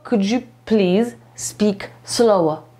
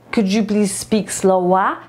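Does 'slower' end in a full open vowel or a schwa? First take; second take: schwa; full vowel. First: 'Slower' ends in a weak schwa vowel. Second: 'Slower' ends in a full open vowel. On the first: The speaker calls it right. "Ten sam dźwięk będzie tutaj w naszym słówku slower" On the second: The speaker calls it wrong. "to nie jest slower"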